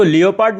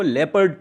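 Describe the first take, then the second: First: लियोपार्ड said wrong as lee-o-paard; the mistaken reading लियोपार्ड with full lee-o-paard syllables; wrong pronunciation. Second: लेपर्ड said right as lep-ard with a short e; the correct reading लेपर्ड, lep-ard; correct pronunciation. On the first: Teacher showing students the wrong way to say लियोपार्ड as lee-o-paard. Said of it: "इसको लियोपार्ड नहीं पढ़ते हैं". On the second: Teacher giving students the correct लेपर्ड, lep-ard. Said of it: "इसको लेपर्ड पढ़ते हैं". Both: Shown as a demonstration.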